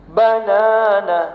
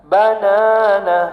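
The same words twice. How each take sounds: Both takes have the same delivery.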